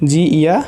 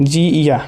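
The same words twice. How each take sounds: The two takes are said the same way.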